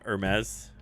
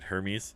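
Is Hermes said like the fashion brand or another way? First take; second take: brand; other way. First: It is pronounced like the fashion brand name. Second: It is not pronounced like the fashion brand. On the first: The speaker calls it wrong. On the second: The speaker calls it right.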